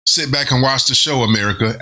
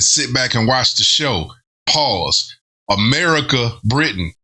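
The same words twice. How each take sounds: First: "Sit back and watch the show, America" run together; one complete sentence. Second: "show", "America", "Britain" set apart by breaks; slow "Sit back and watch the show", then say "Pause"; broken-up cadence. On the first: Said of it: "if that was a complete sentence". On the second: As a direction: land "America" and "Britain" as separate beats. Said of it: "pay attention to the cadence". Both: Shown as a demonstration.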